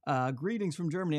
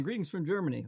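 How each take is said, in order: First: Mock German accent. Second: Said in the usual way. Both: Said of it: "that's not a German accent at all".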